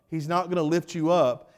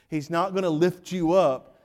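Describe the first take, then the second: No difference in how they are said.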